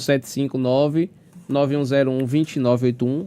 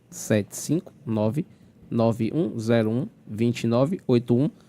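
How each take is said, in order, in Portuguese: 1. Os dígitos são ditos em ritmo normal. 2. Os dígitos são ditos devagar e com cuidado.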